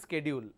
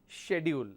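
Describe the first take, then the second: First: It mixes the British and American ways. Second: It is said the British way. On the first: "this is our Indian pronunciation" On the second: "British pronounce this as schedule"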